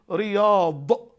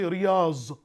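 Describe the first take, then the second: First: The word ends in an emphatic d sound. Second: The word ends in a z sound. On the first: The speaker calls it right. "For example" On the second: The speaker calls it wrong. "I hear some say riyaz"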